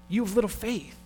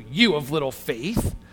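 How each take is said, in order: First: It is said in a caring tone. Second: It is said in an angry tone.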